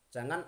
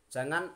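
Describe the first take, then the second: The two takes are said the same way.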